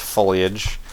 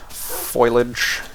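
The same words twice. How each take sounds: First: The word is said in its usual form. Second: The word is said in a jokey, altered form. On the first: The speaker calls it right. "I know it's pronounced foliage" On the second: The speaker calls it wrong. "if you will"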